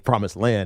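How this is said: The pitch falls at the end. It sounds certain and final. "it's just a finalized statement"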